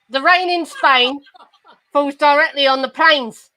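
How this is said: It is said in a broad Cockney accent. "This is my mother's accent"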